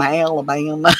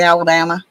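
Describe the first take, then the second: First: "Alabama" drawled like "Ala-BAH-yum"; hammed-up Southern Alabama. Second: Said in the usual way. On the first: Shown as a demonstration. Telling shoppers where she's from, "Alabama" drawled as "Ala-bye-um". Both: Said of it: "even though I say Alabama".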